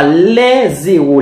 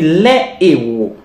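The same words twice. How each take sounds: First: Les héros with a z linking sound; wrong liaison. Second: Les héros with no z, a clean break; les héros kept apart, aspirated h; correct, no liaison. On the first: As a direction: say les héros as lèz-héros, z carried over. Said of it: "On dit pas". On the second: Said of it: "on dit les héros". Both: Shown as a demonstration.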